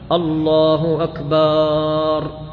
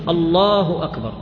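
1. الحركة التي قبل الراء الأخيرة طويلة. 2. الحركة التي قبل الراء الأخيرة قصيرة. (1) "هذا نوع من التلحين، أحال المعنى" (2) "على وجه الجزم"

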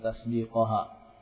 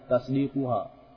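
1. Vokal sebelum -ha adalah bunyi 'a'. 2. Vokal sebelum -ha adalah bunyi 'u'. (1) "Kenapa Ustaz membaca tasdiqaha di fathah?" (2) "Enggak di dhamma saja"

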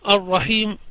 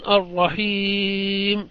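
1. الحركة قصيرة، ثم يأتي بعدها صوت خفيف جدًا. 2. تُنطق الحركة التي قبل الميم الأخيرة بإشباع متوسط. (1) "الروم يكون الرحيم" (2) "التوسط يكون الرحيم"

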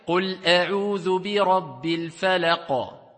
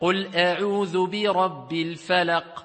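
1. La q final termina con un rebote fuerte y con eco. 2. La q final se detiene sin rebote con eco. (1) "donc c'est une qalqala, si on s'arrête ici, kubra, grande" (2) "Il va dire le Qaf, falaq"

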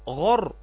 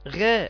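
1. الحرف ثقيل، يملأ الفم. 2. الحرف خفيف ورقيق. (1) "التفخيم هو سمن يدخل على صوت الحرف حتى يمتلئ الفم بصداه" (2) "ما تقولش غا غا"

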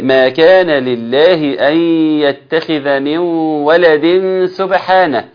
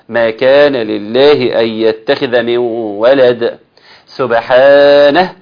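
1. تتصل الكلمات دون وقفة قبل الكلمة الأخيرة. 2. توجد وقفة قبل الكلمة الأخيرة.

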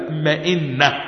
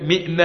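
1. الحركات تتبع نفس نمط maẓinna. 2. الحركات تختلف عن نمط maẓinna. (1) "الكلمتان على وزن واحد، مئنة ومظنة" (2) "لأن البعض بينطق هذه الكلمات خطأ، فيقول مئنة"

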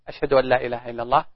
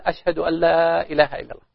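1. تُقال العبارة بصوت منخفض، بالكاد يُسمع. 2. تُقال العبارة بصوت عالٍ، مع رفع الصوت. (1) "يسمع نفسه" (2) "ثم يعود فيرفع صوته كالمعتاد"

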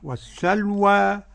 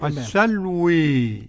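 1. الحركة الأخيرة 'a' مفتوحة تماماً. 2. الحركة الأخيرة تميل بشدة نحو 'e'. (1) "قرأ بالفتح" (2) "بالإمالة"

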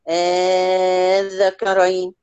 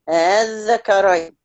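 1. الهمزة الثانية تصير ألفًا ممدودة. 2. الهمزة الثانية مُسهَّلة، غير مَنطوقة كاملة. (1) "والإبدال؟" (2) "لما تيجي تقرأيهم بالتسهيل"

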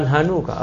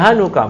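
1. Vokal setelah n panjang. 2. Vokal setelah n pendek.

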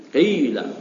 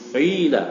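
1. Vokal pertamanya berada di antara u dan i. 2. Vokal pertamanya berada di antara u dan i.

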